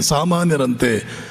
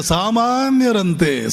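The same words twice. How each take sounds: First: ಸಾಮಾನ್ಯರಂತೆ said lower and slowly through a scornful laugh; mocking laugh. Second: ಸಾಮಾನ್ಯರಂತೆ drawn out slowly, falling at the end; slow emphatic. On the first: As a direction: laugh at ಸಾಮಾನ್ಯರಂತೆ while dropping low. (ನಗುತ್ತಾ ಕೆಳಧ್ವನಿಯಲ್ಲಿ ವ್ಯಂಗ್ಯದ ಸಾಮಾನ್ಯರಂತೆ) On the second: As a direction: stretch out ಸಾಮಾನ್ಯರಂತೆ with weight. (ನಿಧಾನವಾಗಿ ಒತ್ತಿ ಹೇಳಿದ ಸಾಮಾನ್ಯರಂತೆ) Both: Shown as a demonstration.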